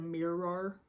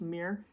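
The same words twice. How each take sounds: First: It is said fully, with two syllables. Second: It is said as one syllable, Michigan style.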